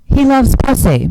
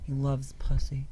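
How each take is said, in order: First: It is said louder. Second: It is said at normal, quieter volume.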